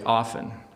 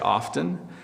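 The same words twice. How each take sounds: First: The t sound is left out. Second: The t sound is clearly pronounced. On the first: "But if I'm talking really fast" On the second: "If I am talking really slowly"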